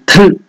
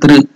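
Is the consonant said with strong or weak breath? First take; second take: strong; weak. First: The consonant is said with strong breath. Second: The consonant is said with little breath. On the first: The speaker calls it right. "Then it is Mahaprana, Dhr. So you have to give more stress" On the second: The speaker calls it wrong. "It is not Dhr"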